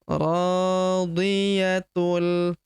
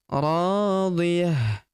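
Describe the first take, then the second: First: The word ends in 'tul', linked to the next word. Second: The word ends in a stopped h sound. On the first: The reading runs on into the next verse. "tanwinnya berubah menjadi melebur masuk ke huruf lam" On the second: The reading stops at the end of the verse. "Tak marbutoh di ujung berubah menjadi ha sukun ya. Karena kita hentikan bacaan kita di sini ya"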